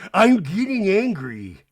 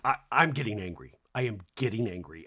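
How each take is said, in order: First: Loud, slow, higher mock warning; mock angry. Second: Low, controlled imitation of a cross mother; mad mom warning. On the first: Housewife warning the others, slow loud mock anger. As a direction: imitate someone losing their temper, drawn out. Imitating Meredith's angry outburst. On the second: Mom putting fear into her kid, low mock warning. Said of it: "my mom when she would get mad".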